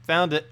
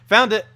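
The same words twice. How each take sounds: First: Said in the usual way. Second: A loud, high burst of relief; triumphant cry of discovery; excited. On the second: Real, not acted. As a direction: shout it like you finally found it. Finds link after long search.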